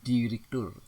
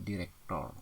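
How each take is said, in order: First: "Direktur" ending in -tur, higher and louder; punched "Direktur" with U; standard pronunciation. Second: "direktor" ending in -tor; nonstandard pronunciation. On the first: Teacher models standard word, strong "Direktur". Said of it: "baku, bukan direktor". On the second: Teacher shows wrong form, "direktor" with O. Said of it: "tidak baku". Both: Shown as a demonstration.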